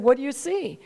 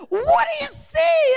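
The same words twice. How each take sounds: First: Calm, easy question at usual pitch. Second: Very high, slow screamed question. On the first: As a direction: ask evenly, without pressing. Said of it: "quite calm at first". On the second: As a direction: scream it, stretching the words. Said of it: "he just screamed it. He said". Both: Retold or imitated.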